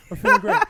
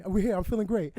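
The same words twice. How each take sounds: First: Mock his voice in a high squeal; cartoonish high-pitched imitation of the host; squeaky high mock host voice. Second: Imitating host's podcast voice. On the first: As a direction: pitch jumps way up, loud and squeaky. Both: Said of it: "look at that voice".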